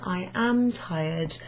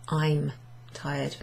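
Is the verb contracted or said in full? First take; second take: full; contracted. First: The verb is said as a separate full word. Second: The verb is joined to the pronoun, contracted. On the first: "we've got the long form here" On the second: "which can be contracted down to"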